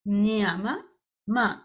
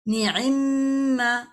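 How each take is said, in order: First: The two m sounds are said separately. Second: The two m sounds merge into one doubled m. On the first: "थोड़ा सा जबान पे मुश्किल भारी लगता है ना" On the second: "तो इसे कर दिया गया निम्मा"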